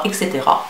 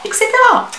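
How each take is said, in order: First: Said in the usual way. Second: Cetera jumps way up into a squeak; playful squeaky et cetera. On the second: Pretend. Beauty vlogger trailing off her list in a squeaky voice. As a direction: toss off the repeat in a high silly voice.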